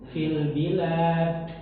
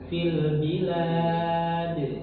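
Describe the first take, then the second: First: The final d is released with a puff of air. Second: The final d is released with a voiced bounce. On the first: The speaker calls it wrong. "Keluarnya udara" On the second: The speaker calls it right. "Jadi suara"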